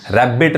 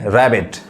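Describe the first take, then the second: First: रैबिट with both b's sounded; रैबिट wrongly split on a doubled b; wrong double-b pronunciation. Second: रैबिट with only one b sounded; रैबिट without doubling the b; single-b pronunciation. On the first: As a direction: say रैबिट as rab-bit, doubling the b. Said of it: "रैबिट नहीं". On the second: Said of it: "एक ही बी पढ़ेंगे". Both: Shown as a demonstration.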